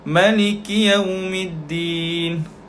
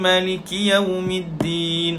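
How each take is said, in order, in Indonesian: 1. Vokal setelah M pendek. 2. Vokal setelah M panjang. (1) "Warsh membaca tanpa alif kecil tu" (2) "ada alif kecil lepas huruf mim"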